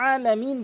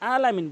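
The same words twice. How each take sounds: First: The word starts with a pressed throat sound. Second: The word starts with a plain vowel. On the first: The speaker calls it right. "আইনটি হলকের মাঝখান থেকে আলামিন বলতে হবে চাপ দিয়ে" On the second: The speaker calls it wrong. "অধিকাংশ লোক এই ক্ষেত্রে ভুল করে থাকে"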